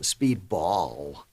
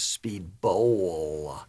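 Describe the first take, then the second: First: Speedball with an open "aw" in BALL, drawn out; stressed BALL ending. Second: Speedbowl with a long, drawn-out "oh" in BOWL; exaggerated BOWL pronunciation. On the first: Streamer correcting himself on the name, stressed "Speedball". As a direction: hit BALL in Speedball slowly and loudly. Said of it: "It was Speedbowl". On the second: Streamer correcting the name for viewers, overpronounced "Speedbowl". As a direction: stretch BOWL in Speedbowl very slowly. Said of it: "That's how we pronounce it". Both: Shown as a demonstration.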